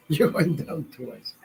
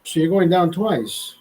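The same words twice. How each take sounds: First: Slow, through a laugh; laughing repeat. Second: Said in the usual way. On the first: Real, not acted. Laughing at his own joke to Andrea, slow. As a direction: chuckle the punchline out slowly. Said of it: "repeated through a laugh". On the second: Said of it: "punchline then repeated".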